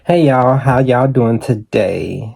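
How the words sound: The greeting sounds fake and put on.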